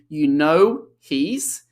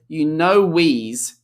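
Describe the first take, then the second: First: The h sound in he's is pronounced. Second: The h is dropped, linking with a w sound. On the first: "instead of saying" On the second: "reduction of the H in the pronoun he"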